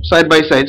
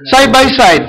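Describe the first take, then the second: First: Said in the usual way. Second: "Side by side" lifted high, first "side" hit hard; emphatic side by side. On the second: Shown as a demonstration. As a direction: stress the first "side", pitch up. (idiniin at mataas ang "Side by side")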